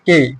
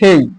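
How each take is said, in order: First: The k sound is plain, without aspiration. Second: The k sound is aspirated, with a breath. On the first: The speaker calls it wrong. "সাধারণভাবে বলি যে কে" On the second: The speaker calls it right. "এটা হবে খেই"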